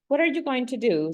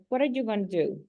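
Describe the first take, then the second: First: Going to is said fully and carefully. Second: Going to is said fast, reduced to gonna.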